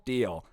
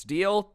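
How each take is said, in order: First: Said in the usual way. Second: Deal? lifted high as a hopeful question. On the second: Retold or imitated. Scammer pitching his offer to the group, rising hopeful question. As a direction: pitch Deal? up like a salesman closing.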